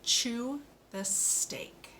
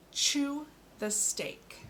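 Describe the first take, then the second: First: "Chew the steak" whispered slowly, with "Chew" lifted higher; whispered model sentence. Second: "Chew the steak" said slowly, with "Chew" lifted higher; slow model sentence. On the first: Speech therapist whispers the model sentence to a child. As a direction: breathe it out slowly with no voice. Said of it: "one more time". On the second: Speech therapist models a sentence for a child, slow and bright. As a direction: lean on "Chew", then ease through the rest. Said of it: "Here we go". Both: Shown as a demonstration.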